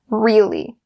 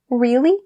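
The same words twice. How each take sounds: First: It sounds flat and sarcastic. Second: It rises in pitch and sounds surprised. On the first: The speaker doubts or mocks what was said. The speaker calls it wrong. "It almost sounds like you're being sarcastic" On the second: The speaker is genuinely surprised. The speaker calls it right. "raise up your voice a little bit and stress it"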